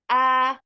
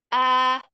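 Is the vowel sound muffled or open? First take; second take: open; open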